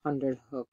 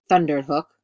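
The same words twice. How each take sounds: First: Said in the usual way. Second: Loud, booming narrator's retake; punched, much louder delivery; thundering. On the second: A narrator's reading. Retake performs the word thundered.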